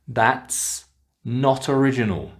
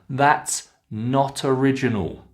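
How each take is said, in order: First: The T runs into the next word. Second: The T runs into the next word.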